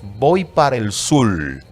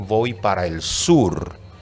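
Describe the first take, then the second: First: The last word ends with an L sound. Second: The last word ends with an R sound. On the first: The speaker calls it wrong. "el lambdacismo cuando decimos" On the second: The speaker calls it right. "por decir"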